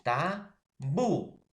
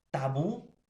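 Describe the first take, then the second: First: "Tabú" as TA... BÚ, slowly; drawn-out "Tabú", swelling on the final syllable; stress on last syllable. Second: Said in the usual way. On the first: Shown as a demonstration. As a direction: split "Tabú" and push hard on BÚ. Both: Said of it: "en la última".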